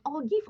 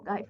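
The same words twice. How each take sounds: First: "Ogive" ending like "geev"; unsure pronunciation. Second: "Ogive" ending like "guyve"; alternative pronunciation. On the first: Teacher unsure of the term, trying "Ogive" with an ee. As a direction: say "Ogive" quietly with an ee in the last syllable. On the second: Teacher unsure of the term, trying "Ogive" rhymed with five. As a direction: say "Ogive" quietly with a long i, as in five. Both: Shown as a demonstration. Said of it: "is it Ogive or Ogive".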